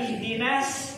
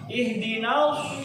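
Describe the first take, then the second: First: The S sound is light and plain. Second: The S sound is heavy and emphatic. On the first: The speaker calls it wrong. "Pakai sin, ah, jadi jadi salah kan" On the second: The speaker calls it right. "pakai shod"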